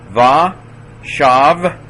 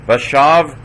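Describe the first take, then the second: First: Va, shav, high and loud with a gap between; teacher's ringing breakdown of va, shav; syllable by syllable. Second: Said in the usual way. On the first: Shown as a demonstration. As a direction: sound out va, shav as two separate syllables. Teacher sounds word out by syllables.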